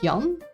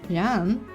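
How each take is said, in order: First: The name is said with Dutch sounds. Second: The name is said with English sounds.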